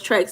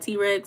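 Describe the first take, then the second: First: It is said as one syllable, trex. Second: It is said as the letter T, then rex. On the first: The speaker calls it right. "it's Trex" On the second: The speaker calls it wrong. "not T Rex"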